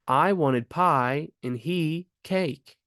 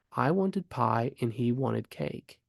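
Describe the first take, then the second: First: Slow, with "pie" and "cake" standing out and a pause after "he"; nouns emphasized. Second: Said in the usual way. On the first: Shown as a demonstration. Teacher demonstrating a comma for a left-out word, nouns emphasized. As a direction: stress "pie" and "he", then pause before "cake". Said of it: "emphasizing the nouns". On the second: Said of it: "replacing the word wanted".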